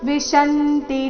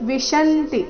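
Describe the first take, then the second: Both takes have the same delivery.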